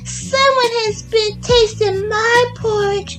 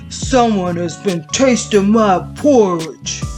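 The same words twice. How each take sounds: First: It is said in a small, high voice. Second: It is said in a big, deep voice. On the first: "in his little wee voice" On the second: "in his great big voice"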